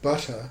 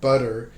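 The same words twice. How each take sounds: First: British accent, with a crisp T middle sound. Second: American accent, with a soft D-like middle sound. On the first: "in British it would be pronounced butter" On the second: "in English is pronounced butter"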